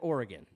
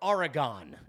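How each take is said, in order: First: It is pronounced the way locals say it. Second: It is pronounced with a New York accent. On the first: The speaker calls it right. "instead of Oregon" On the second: The speaker calls it wrong. "This is how I grew up"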